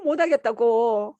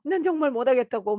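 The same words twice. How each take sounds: First: Slow, loud desperate plea; slow anguished begging; pleading. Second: Said in the usual way. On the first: Retold or imitated. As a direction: beg them to stop, dragging it out. Begging the nurse to stop. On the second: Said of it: "난 정말 못하겠다고 막 이러니까".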